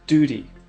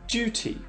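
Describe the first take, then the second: First: It is said with an American pronunciation. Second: It is said with a British pronunciation.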